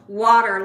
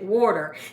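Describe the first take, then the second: First: It is said in the speaker's ordinary accent. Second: It is said in a Philadelphia accent. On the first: This is how the speaker says it. "like I do" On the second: This is how someone from Philadelphia says it. "He pronounces it water"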